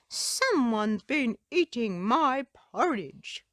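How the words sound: It is said in a deep growl.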